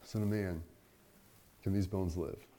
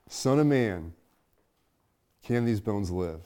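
First: Soft, searching question. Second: Said in the usual way. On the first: Acted. Question repeated to congregation.

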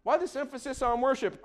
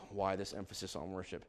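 First: Said in the usual way. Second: Very soft, low musing; hushed pondering. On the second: Real, not acted. Preacher pondering his own question, hushed and low. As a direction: drop right down, as if thinking aloud. Question repeated quietly to himself.

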